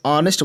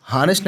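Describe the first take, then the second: First: ऑनेस्ट starting straight on the open vowel with no h; silent h. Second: हॉनेस्ट with a sounded h at the start; wrong aspirated h. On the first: Teacher shows students the correct ऑनेस्ट, with no h sound. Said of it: "ऑनेस्ट बोलते हैं". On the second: Teacher shows students the wrong way, voicing the h in हॉनेस्ट. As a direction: say हॉनेस्ट as the wrong version, breathing an h before the vowel. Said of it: "हॉनेस्ट नहीं बोलते हैं". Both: Shown as a demonstration.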